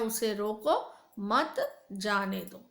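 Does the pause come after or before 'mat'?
before. The pause comes before the word 'mat'. Stop him; do not let him go. "दूसरे वाक्य में कहा उसे रोक लो जाने दो"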